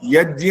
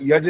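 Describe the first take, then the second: First: The word ends with a 'gy' consonant cluster. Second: The word ends with a plain 'j' sound. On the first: The speaker calls it right. "यज्ञ होता है" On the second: The speaker calls it wrong. "यज नहीं होता, आप ज बोलते जा रहे हो"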